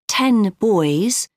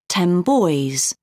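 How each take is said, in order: First: Ten ends with a clear n sound. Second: Ten ends with an m sound.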